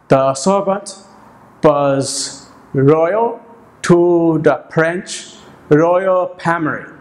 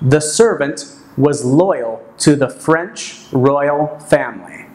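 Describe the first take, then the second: First: It is said with a heavy foreign accent. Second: It is said with clear standard English sounds. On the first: The speaker calls it wrong. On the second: The speaker calls it right. "an example of a sentence said with decent English pronunciation"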